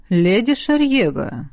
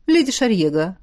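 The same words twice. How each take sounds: First: Slow, hoarse call of the name. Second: Said in the usual way. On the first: A narrator's reading. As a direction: rasp her name, drawing it out. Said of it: "Хриплый голос раздался совсем близко". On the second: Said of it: "Хриплый голос".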